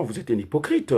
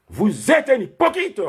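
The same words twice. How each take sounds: First: Said in the usual way. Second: "Vous êtes un hypocrite" higher, slow, "êtes" hammered; accusing, slowed emphasis. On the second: Real, not acted.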